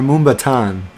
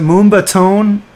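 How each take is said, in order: First: The last syllable sounds like 'tan'. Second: The last syllable sounds like 'tone'. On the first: "is it Moomba Tone or Moomba Tan?" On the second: "is it Moomba Tone or Moomba Tan?"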